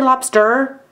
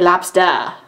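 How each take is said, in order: First: The final R sound is clearly pronounced. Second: The final R sound is dropped entirely. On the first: "we don't say lobster" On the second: "There's no R on the end of that here in New England"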